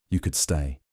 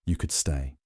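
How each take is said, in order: First: Said in the usual way. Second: Softer, low and hushed; a hushed invitation from the bath; very quietly. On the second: A narrator's reading. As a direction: murmur it so only he hears. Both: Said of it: "very quietly".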